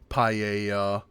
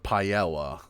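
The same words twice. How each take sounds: First: It is said with an American pronunciation. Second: It is said with a British pronunciation. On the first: The speaker calls it right. "closer to their like native pronunciations" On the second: The speaker calls it wrong. "we don't say"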